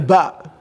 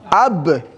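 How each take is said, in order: First: The vowel comes after the b sound. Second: The vowel comes before the b sound. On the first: The speaker calls it wrong. "you don't say ba" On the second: The speaker calls it right. "you have to add a little bit alif"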